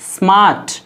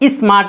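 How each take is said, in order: First: The word starts directly with the s sound. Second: An extra vowel sound comes before the s. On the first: The speaker calls it right. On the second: The speaker calls it wrong.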